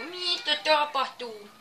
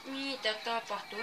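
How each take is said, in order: First: Slow, louder, higher drawn-out what's happening; baffled. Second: Said in the usual way. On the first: Real, not acted. Gamer staring at the screen, baffled and slow. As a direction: stretch the question out in disbelief.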